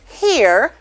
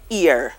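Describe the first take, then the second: First: The word begins with an H sound. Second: The word begins directly with a vowel. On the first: This is the standard English form. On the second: This is the Creole form.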